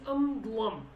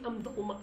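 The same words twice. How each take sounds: First: Said in the usual way. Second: "am dulma" ending in an open -ma; other-accent form. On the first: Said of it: "I would say am dulm". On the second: Shown as a demonstration. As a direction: end "am dulma" on the vowel a. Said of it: "I don't say am dulma".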